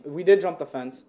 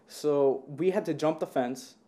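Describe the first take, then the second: First: "did" said louder and punched; stress on did. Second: Said in the usual way. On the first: Shown as a demonstration. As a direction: hit "did" in "We did jump the fence". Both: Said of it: "no, I'm playing".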